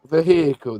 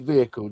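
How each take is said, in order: First: American style, with the H clearly pronounced. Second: British style, with the H left silent.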